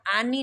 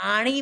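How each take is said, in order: First: Plain dental "n" in आनी. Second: Hard retroflex "ṇ" in आणी. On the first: Teacher shows the ending to avoid, dental आनी. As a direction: say आनी with tongue on the teeth. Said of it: "आनी नहीं बोलना है". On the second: Teacher drills the correct ending, retroflex आणी. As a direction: say आणी with tongue curled back. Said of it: "आणी बोलना है". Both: Shown as a demonstration.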